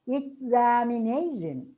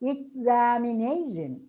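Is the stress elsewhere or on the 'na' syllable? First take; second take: on 'na'; on 'na'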